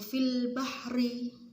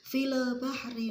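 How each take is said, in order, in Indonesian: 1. Konsonan mati berakhir dengan bersih tanpa vokal tambahan. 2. Ada vokal tambahan 'e' setelah konsonan mati. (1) "Harus langsung" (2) "terdengar suara e"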